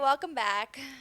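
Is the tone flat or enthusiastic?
flat. It is said flatly, without enthusiasm.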